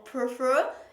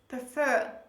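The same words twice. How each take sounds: First: The stress is on the first syllable. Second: The stress is on the second syllable. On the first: The speaker calls it wrong. "they usually put the stress on the first syllable" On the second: The speaker calls it right. "the stress is on the last syllable, on the second syllable"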